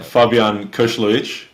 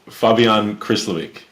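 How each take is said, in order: First: The surname keeps its full native pronunciation. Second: The surname is said in a simpler, anglicized way. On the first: "super proper is" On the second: "we'll take"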